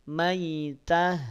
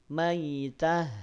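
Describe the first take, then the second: Both takes have the same delivery.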